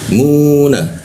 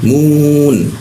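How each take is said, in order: First: The syllable ends with an open a vowel. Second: The syllable ends on a closed n sound. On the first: The speaker calls it wrong. "kalau dibaca normal jadinya muna" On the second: The speaker calls it right. "kalau dimatikan itu nanya itu a-nya dihilangkan"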